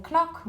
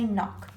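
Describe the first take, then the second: First: Wrong knock, k-nock; k sounded. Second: Said in the usual way. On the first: Shown as a demonstration. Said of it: "We don't say knock". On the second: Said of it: "we say knock".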